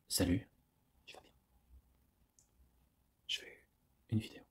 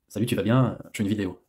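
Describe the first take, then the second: First: It is said in a suggestive, seductive tone. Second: It is said in a plain, neutral tone. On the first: The greeting sounds sexually suggestive. "rien que par l'intonation de la voix, tout change" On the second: An ordinary friendly greeting. "tu peux dire"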